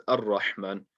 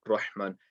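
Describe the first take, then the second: First: "Ar-Rahman" with the opening Ar- sounded; correct recitation. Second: "Rahman" with the opening Ar- dropped; wrong reading. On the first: Teacher telling students how to read the verse, correct recitation. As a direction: begin "Ar-Rahman" on a clear short a. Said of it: "make sure you are reading it as". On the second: Teacher warning students off a misreading, wrong recitation. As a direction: start "Rahman" straight on the r. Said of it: "and not Rahman". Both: Shown as a demonstration.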